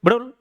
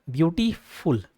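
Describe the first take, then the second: First: beautiful gabbled fast as a single beat; a failed one-breath try at beautiful, slurred and quick. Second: beautiful split as beauty, then फुल; lower, measured beautiful in two separate parts; pause inside word. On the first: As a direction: squash beautiful together with no break. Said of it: "एक सांस में बोल पा रहे हो". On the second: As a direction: say beautiful slowly with a break before फुल. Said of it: "एक कहीं ना कहीं ठहराव आ जाता है". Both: Shown as a demonstration.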